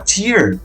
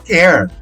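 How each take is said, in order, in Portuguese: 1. A vogal soa como a de 'ear'. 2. A vogal soa como a de 'air'. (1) "Se você quer falar lágrima" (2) "Se você quer falar rasgar"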